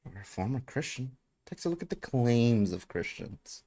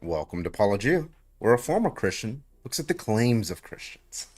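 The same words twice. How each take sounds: First: Paul Gia. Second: A light imitation of a YouTuber's channel intro, a bit higher; mock-announce his catchphrase intro; Paul Gia. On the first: Retold or imitated. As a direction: toss the catchphrase off again, teasing. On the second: Host mimics a YouTuber's channel intro for chat, mock announcer. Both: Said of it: "What's his line?".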